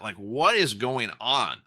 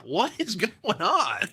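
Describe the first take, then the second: First: Said in the usual way. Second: Slow, higher, laughing through it; laughing disbelief. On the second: Real, not acted. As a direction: laugh at how absurd it is. Laughing at market rising.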